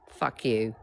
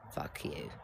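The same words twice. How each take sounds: First: Said in the usual way. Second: The retort sunk to a near-silent whisper; whispered curse. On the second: Retold or imitated. John to Tony over the paid bill, a whispered curse. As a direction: drop it to a hiss of a whisper.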